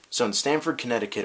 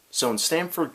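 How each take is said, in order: First: Canadian accent. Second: Said in the usual way. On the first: Shown as a demonstration. Vlogger retrying the town name in a Canadian accent. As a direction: keep the mock Canadian accent on "Stamford". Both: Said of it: "get the Canadian accent going on there".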